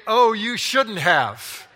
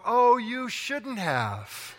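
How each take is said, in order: First: Loud sceptical replay. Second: Slow, higher, drawn-out fake thanks with a laugh; fake gratitude. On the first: Retold or imitated. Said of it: "Did you really mean to say". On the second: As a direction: gush insincerely over a gift you don't like. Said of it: "It's all about language, tone, and intonation".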